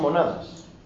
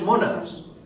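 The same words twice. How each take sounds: First: The stress is on the second syllable. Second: The stress is on the first syllable. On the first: They are cute. "Solo algunos son monadas" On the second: They are simple philosophical substances. "¿Veis la importancia de una tilde?"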